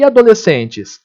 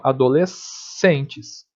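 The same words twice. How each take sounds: First: Said in the usual way. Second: Slow "adolescentes", paused on a long s before "centes"; drawn-out S sound. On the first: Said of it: "Existe isso daqui?". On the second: Shown as a demonstration. Teacher showing the phoneme, "adolescentes" with the s stretched. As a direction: hold the sc of "adolescentes" as one s. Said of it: "tem esse fonema".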